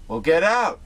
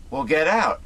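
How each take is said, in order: First: Mock yell get out; retold yell. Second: Yelling get out again; retold yell. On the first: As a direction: yell it at them. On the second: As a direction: shout them out. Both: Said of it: "Yells at them and says".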